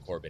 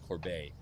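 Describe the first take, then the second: First: The name's last syllable is weak and unstressed. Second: The name's last syllable is full and stressed. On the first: The speaker calls it wrong. "don't say Corbett" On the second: The speaker calls it right. "it's Corbet"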